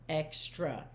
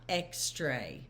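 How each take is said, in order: First: Said in the usual way. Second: Extra as "ex-TRAY", slowly; extra misread with "tray" for its last syllable; mispronounced extra. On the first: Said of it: "It's not extra". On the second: Shown as a demonstration. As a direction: end extra on a long A, rhyming with "day". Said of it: "pronounce it the wrong way".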